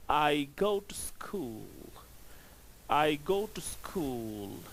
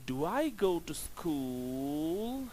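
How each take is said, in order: First: "I go to school" slowly, falling at the end on "school"; slow statement, drop the pitch at the end. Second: "Do I go to school?" slowly, dipping then rising on "school"; rising question tone. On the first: Teacher contrasts a statement with a question, falling slowly. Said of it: "the tone falls down". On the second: Teacher contrasts a question with a statement, rising slowly. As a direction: drag it out and let the end climb. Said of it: "the tone is rising". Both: Shown as a demonstration.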